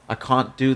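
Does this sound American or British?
British. It is said with a British-sounding accent. The speaker has picked up a way of talking while living in London. "I have a funny way of speaking because I sometimes will say"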